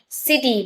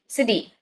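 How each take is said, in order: First: The middle consonant is a clear, hard T. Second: The middle consonant is a quick D sound. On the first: "We say city" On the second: "but in actual it's city"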